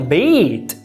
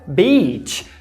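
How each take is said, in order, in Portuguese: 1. A palavra termina com um som de t puro. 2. A palavra termina com um som parecido com ch.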